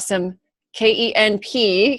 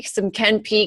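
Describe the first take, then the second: First: K E N P spelled letter by letter. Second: Ken P said as one word plus letter. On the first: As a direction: say K E N P as separate letters, slowly. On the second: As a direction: say Ken P like a name, not spelled. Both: Shown as a demonstration.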